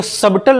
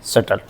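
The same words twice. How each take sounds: First: सबटल said as "sub-tle" with the b heard; wrong way, b sounded. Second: सटल said as "suttle", b dropped; silent b. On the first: Teacher showing the wrong reading of subtle, b pronounced. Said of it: "इसको सबटल नहीं पढ़ेंगे". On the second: Teacher giving the correct reading of subtle, b silent. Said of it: "इसको पढ़ते हैं सटल". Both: Shown as a demonstration.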